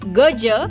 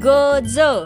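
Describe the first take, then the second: First: The final consonant is a palatal 'j' sound. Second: The final consonant is a dental 'dz' sound. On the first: It means elephant. "पण जर तो उच्चार ज असा झाला तर त्याचा अर्थ होतो गज" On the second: It means the vertical bars on windows or prisons. "याचा जर ज उच्चार केला तर शब्द होतो गज"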